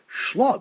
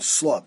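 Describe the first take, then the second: First: The word begins with a sh sound. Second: The word begins with an s sound. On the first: This is how the word is written. "that's pronounced as a shin sound, not a sin sound" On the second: This is how the word is read aloud. "But we pronounce it, the karina"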